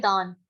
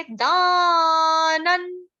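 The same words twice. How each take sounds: First: Said in the usual way. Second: दानन hugely drawn out and loud; pron दानन. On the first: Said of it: "Hindi में हम बोलते हैं दान". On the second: Shown as a demonstration. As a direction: stretch दानन slowly, full voice. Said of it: "Sanskrit में क्या बोलेंगे". (संस्कृत में दानन लंबा खींचकर)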